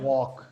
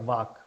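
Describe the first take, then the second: First: The word begins with a W sound. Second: The word begins with a V sound. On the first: The speaker calls it right. "और डब्ल्यू से करोगे तो क्या होगा?" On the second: The speaker calls it wrong. "अगर तुम वी से करोगे तो क्या हो जाएगा?"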